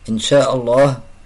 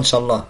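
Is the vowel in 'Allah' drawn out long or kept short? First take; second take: long; short. First: The vowel in Allah is drawn out long. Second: The vowel in Allah is clipped short. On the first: The speaker calls it right. "il faut bien prononcer et prolonger pour Allah" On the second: The speaker calls it wrong. "on dit pas, il faut pas déformer"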